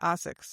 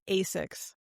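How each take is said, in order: First: The name is said with a European pronunciation. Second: The name is said with an American pronunciation. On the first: "Europeans say" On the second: "Americans say"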